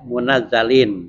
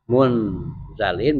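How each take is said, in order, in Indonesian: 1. Z-nya dobel, setelah ditambah vokal. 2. Z-nya pendek, tanpa tambahan vokal. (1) "Kalau dengan tasdid munazzalin" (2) "Kalau bitahfif munzalin"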